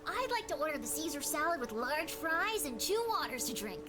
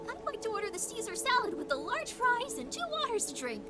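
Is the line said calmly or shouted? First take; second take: calmly; shouted. First: It is said calmly, not shouted. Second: It is said louder, cutesy and shouted.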